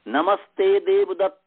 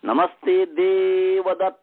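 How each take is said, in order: First: The name ends plainly, without a drawn-out vowel. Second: The name's last vowel is drawn out and high.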